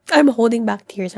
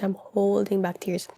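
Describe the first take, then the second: First: Fighting to keep the tears in; holding back tears. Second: Dropped to a softer, wobbly murmur; softer, tearful repeat. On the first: Reading vlog, blurting that she is about to cry. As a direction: voice pushed out over welling tears. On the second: Reading vlog, repeating softly that she is close to tears. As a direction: let it sink, nearly crying. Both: Real, not acted.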